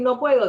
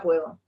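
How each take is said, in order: First: "no puedo" said higher and louder, the doubtful way; preacher voicing "no puedo" as the doubt to drop; negative phrasing. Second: Said in the usual way. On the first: Shown as a demonstration. Preacher to congregation, quoting "no puedo" as the habit to drop. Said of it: "En vez de decir".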